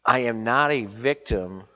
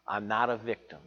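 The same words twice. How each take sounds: First: I am NOT a victim, louder, NOT stressed; a firm, louder declaration to the church; emphatic declaration. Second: Said in the usual way. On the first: Shown as a demonstration. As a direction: proclaim it, hitting the word not. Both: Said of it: "I want to say this how I heard it".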